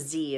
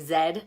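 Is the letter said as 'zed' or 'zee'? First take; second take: zee; zed. First: The letter is said the American way, 'zee'. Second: The letter is said the Canadian way, 'zed'.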